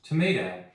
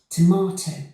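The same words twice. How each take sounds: First: It is said in an American accent. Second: It is said in a British accent. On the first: "then American"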